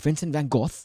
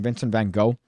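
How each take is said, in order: First: Van Gogh is said with a British pronunciation. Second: Van Gogh is said with an American pronunciation. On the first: "the way that the Brits say it" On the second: "like a normal person"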